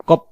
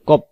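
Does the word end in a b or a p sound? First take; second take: p; p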